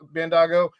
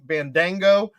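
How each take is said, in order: First: No 'n' sound comes before the 'g'. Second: An 'n' sound comes before the 'g'. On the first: The speaker calls it right. "He he fixed it" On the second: The speaker calls it wrong. "fixing Bandango into"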